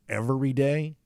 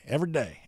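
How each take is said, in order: First: Every syllable is fully pronounced. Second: Syllables are dropped and run together. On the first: "instead of saying every day" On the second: "there's a lot of omitted syllables"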